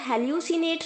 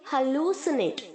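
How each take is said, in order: First: It begins with 'heh-lyoo'. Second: It begins with 'ha-loo'. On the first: The speaker calls it wrong. "आप इसे हेल्यूसिनेट नहीं बोलेंगे" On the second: The speaker calls it right. "डबल ओ की तरह sound करेगा"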